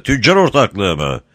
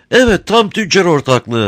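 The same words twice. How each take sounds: First: Said in the usual way. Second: High, sweet-talking crafty smuggler; sly, sugary old rogue; honeyed voice. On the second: A narrator's reading. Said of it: "tatlı konuşuyor".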